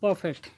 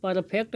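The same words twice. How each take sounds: First: परफेक्ट with silent R, "puh-fekt"; correct pronunciation. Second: परफेक्ट stretched as "para-phekt", R sounded; mock mispronunciation. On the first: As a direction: drop the R in परफेक्ट, English style. (परफेक्ट में र silent, "पॉफेक्ट") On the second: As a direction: sound every letter of परफेक्ट, rustic "par-a-phekt". (परफेक्ट में र पूरा बोलकर गलत उच्चारण) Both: Shown as a demonstration. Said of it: "परफेक्ट नहीं बुड़बक".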